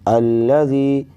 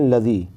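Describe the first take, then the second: First: The L sound is held long and doubled. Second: The L sound is short and single. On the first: The speaker calls it right. "जबकि इस पर तशदीद है" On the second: The speaker calls it wrong. "अक्सर व बेशतर लोग पढ़ते हैं लज़ी"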